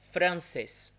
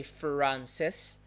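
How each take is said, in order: First: "Francis" as Portuguese francês, with a tapped R; vibrating R. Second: "Francis" slowly with an English curled-tongue R; retroflex R. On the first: Teacher showing what we say instead, vibrating R. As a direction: flick the R in "Francis", Portuguese style. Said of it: "vibrating, Francis". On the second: Teacher showing what Portuguese speakers don't say, retroflex R. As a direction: draw out "Francis" with an untrilled English R. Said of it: "retroflex sound. We don't say". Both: Shown as a demonstration.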